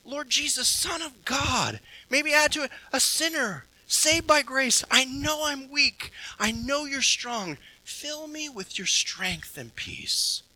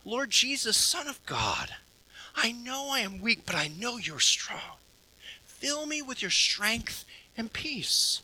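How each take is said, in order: First: Prayer repeated. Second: Quiet prayer. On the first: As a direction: pray it again gently, adding a phrase. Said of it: "reflect on it again". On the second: Preacher models a temptation prayer for the congregation, hushed and tender. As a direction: pray it gently, almost under the breath. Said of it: "a simple prayer of saying". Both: Shown as a demonstration.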